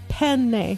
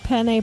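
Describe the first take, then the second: First: The middle n sound is held long. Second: The middle n sound is short. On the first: It names the pasta. The speaker calls it right. "There's two N's" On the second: It sounds like the word for male genitalia. The speaker calls it wrong. "I've been saying something incorrectly"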